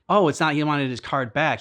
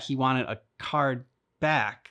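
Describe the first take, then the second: First: "his card back" with the weight on "his"; stress on his. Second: "a card back" said slowly, "card" stressed; card back as one noun. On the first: Explaining a mix-up to a co-host, leaning on "his". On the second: Correcting the meaning for a co-host, slow and stressed on "card". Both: Shown as a demonstration. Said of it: "I'm like".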